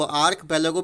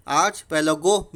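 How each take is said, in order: First: "आर्क पेलागो" with a hard k, ark-pelago; archipelago with k sound. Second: "आर्च पेलागो" with ch, arch-pelago, slowly; archipelago with ch sound. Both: Shown as a demonstration. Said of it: "दोनों तरह से उच्चारण होता है इसका".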